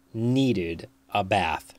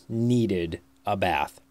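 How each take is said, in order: Both takes have the same delivery.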